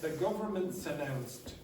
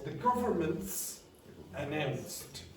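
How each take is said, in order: First: The s links onto the following vowel. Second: The s stays on the first word. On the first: The speaker calls it right. "this S migrated over" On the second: The speaker calls it wrong. "You tried to go"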